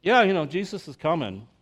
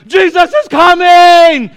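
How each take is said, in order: First: Bored shrug. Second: Shrieking high and loud with joy; Elf-style squeal. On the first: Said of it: "and we're like". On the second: Elf shouting that Santa is coming, shrill glee. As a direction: squeal like a kid at Christmas. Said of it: "He's like". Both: Retold or imitated.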